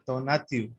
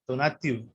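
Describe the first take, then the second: No difference in how they are said.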